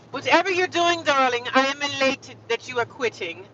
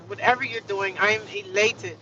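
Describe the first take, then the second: First: High, louder theatrical retort; mock-grand, gleeful reply; hammed-up elation. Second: Said in the usual way. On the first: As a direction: play up the grand delight at someone quitting. Hams up her reply to manager.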